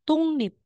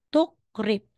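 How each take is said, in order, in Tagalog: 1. Ang gitnang tunog ay ng, sinusundan ng n. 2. Ang gitnang tunog ay k, sinusundan ng r. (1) "magiging tungnip" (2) "Hindi na po siya tukrip"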